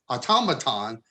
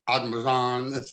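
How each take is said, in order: First: The stress is on the second syllable. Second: The stress is not on the second syllable. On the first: "there's a, a, a an accent on the second syllable" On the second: "that's really more mechanical"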